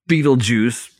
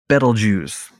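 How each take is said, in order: First: It sounds like 'beetle juice'. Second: The first syllable sounds like 'bet'. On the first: The speaker calls it wrong. "not Beetlejuice" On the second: The speaker calls it right. "I like to pronounce it Betelgeuse"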